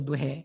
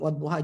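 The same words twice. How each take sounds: First: The final vowel is shifted toward an 'e' sound. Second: The final vowel is an open 'a' sound.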